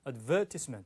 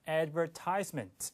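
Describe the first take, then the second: First: It is said with a British stress pattern. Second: It is said with a North American stress pattern. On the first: "영국, 호주는 advertisement 이 음절에 강세를 둬요. 그래서 advertisement 이렇게 들립니다" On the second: "북미 영어는 광고를 발음할 때 advertisement 이렇게 발음하고"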